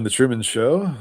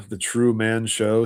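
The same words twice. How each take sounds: First: Said in the usual way. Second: "True Man" slowly, as two separate words; split-word emphasis. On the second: Shown as a demonstration. Host shows viewers the hidden words in the title, "True Man" split slowly. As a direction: draw out "True Man" so both words stand apart.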